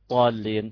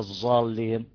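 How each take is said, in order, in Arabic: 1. الحرف هو صوت الطاء المفخّمة. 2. الحرف هو صوت الزاي. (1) "ومش طاء" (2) "مش زين"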